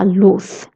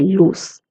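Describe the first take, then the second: First: The final consonant is a th sound. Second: The final consonant is an s sound. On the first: "Z is pronounced as th" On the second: "If you're in Latin America, you can say luz"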